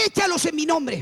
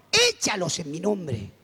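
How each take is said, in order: First: Higher, insistent divine command; voice of God. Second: Slow, lower divine command, falling away; a drawn-out, measured order from heaven, lightly voiced; voice of God. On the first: Retold or imitated. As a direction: give the order as an insistent voice from heaven. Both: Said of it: "siento una voz que me dice".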